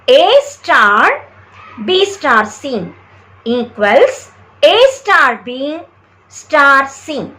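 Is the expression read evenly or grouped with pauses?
grouped. Pauses group the terms into bracketed parts. The grouping of the terms is shown. The speaker calls it right. "A star, pause after that"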